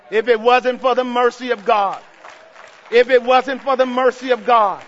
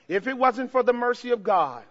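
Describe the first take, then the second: First: Louder each time, hammering it; building shout. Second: Said in the usual way. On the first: Real, not acted. Preacher repeating to the church, louder each time. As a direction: drive the repeat home louder.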